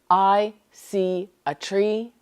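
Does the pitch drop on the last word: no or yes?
no. The last word is not lower in pitch. The speaker calls it wrong. "you're not going to say"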